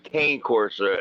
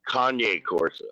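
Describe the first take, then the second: First: The first word is one syllable, like 'cane'. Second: The first word is two syllables, like 'Kanye'. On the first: The speaker calls it wrong. "it's not Kane Corsa" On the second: The speaker calls it right. "It's [name]"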